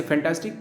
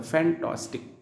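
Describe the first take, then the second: First: Said in the usual way. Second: फैंटास्टिक split into three distinct sounds; teacher breaking फैंटास्टिक into its three syllables. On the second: Shown as a demonstration. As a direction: sound out each vowel of फैंटास्टिक separately. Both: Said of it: "तीनों का अलग अलग sound होता है".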